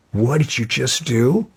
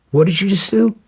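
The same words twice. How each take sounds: First: Incredulous question rising at the end; retold confrontation. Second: Much higher, incredulous demand; escalated retold confrontation. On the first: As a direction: demand an answer, holding back a little. Retold angry confrontation, first take. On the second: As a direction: repeat the question in high-pitched outrage.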